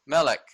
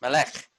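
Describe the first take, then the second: First: "Melech" stressed on the first syllable, MEL-ek; "Melech" with weight up front and a short second vowel; first try at Melech. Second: "Melech" as me-LEKH, stress on the second syllable; "Melech" with a short first vowel and weighted LEKH; corrected Melech. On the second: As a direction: land on the end of "Melech". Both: Shown as a demonstration. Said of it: "Melech, actually".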